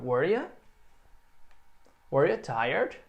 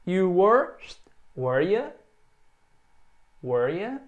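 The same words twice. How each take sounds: First: Were ya and were you tired rising at the end; teacher drills rising questions; question rise. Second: Were ya said with a rising question tune; teacher modeling a question rise. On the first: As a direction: ask it with a lift. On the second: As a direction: lift the end of were ya. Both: Shown as a demonstration. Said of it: "com essa entonação".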